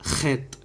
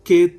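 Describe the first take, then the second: First: It starts with a rough throaty kh sound. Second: It starts with a plain hard k sound. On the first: The speaker calls it right. "ఖెత్ మనం అలాగే పలకాలి" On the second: The speaker calls it wrong. "కెత్ అన్న ఇది రాంగ్"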